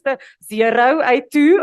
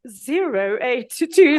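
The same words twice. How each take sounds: First: Said in the usual way. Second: "zero eight two" spelled out slowly, each digit said carefully and loudly; careful phone number. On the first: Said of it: "so that nobody noticed". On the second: Shown as a demonstration. Answering the phone, hiding her accent: slow careful digits. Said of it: "I tried to answer the phone".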